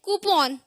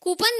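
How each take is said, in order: First: कूपन with a full o, "koo-pawn"; correct pronunciation. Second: कूपन with a weak ending, "koo-pun"; wrong pronunciation. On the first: Teacher correcting learners, कूपन as "koo-pawn". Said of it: "ये है कूपन". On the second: Teacher showing what not to say, कूपन as "koo-pun". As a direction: say कूपन as "koo-pun", short last vowel. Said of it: "कूपन नहीं है". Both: Shown as a demonstration.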